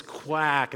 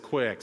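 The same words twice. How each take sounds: First: "quack" for quick, with a short a; Belfast-accented quick. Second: Said in the usual way. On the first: Shown as a demonstration. Explaining the Belfast accent joke, quick pronounced "quack". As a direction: say quick with the vowel of cat, "quack". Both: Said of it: "He says quack instead of quick".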